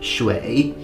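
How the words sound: The word begins with an sh sound. This is the standard modern Chinese pronunciation. "in modern day Chinese, the character for water is pronounced shui"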